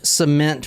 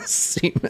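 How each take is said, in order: First: The word sounds like standard 'cement'. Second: The word sounds like 'semen'. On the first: The speaker calls it right. "I'm saying cement right" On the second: The speaker calls it wrong. "I'm not saying it like semen"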